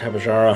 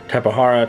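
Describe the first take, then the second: First: The middle consonant sounds like a J. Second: The middle consonant sounds like an H. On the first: "Could be Tapajara" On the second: "I say Tapahara because I believe the J is supposed to be pronounced as an H"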